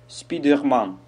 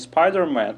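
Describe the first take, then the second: First: It is said with a Korean accent. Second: It is said with a standard English pronunciation.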